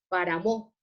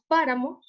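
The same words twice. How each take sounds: First: The stress falls on a later syllable. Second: The stress falls on the first syllable. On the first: The speaker calls it wrong. "No decimos páramo" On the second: The speaker calls it right. "la sílaba tónica es pa, entonces decimos páramo"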